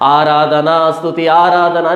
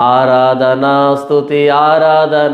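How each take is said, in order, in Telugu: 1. ఈ పదబంధాన్ని చాలా వేగంగా చెబుతున్నారు. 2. ఈ పదబంధాన్ని కొంచెం వేగంగా చెబుతున్నారు. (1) "ఇంకా స్పీడ్ వెళ్ళింది" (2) "కొంచెం స్పీడ్ పెంచింది"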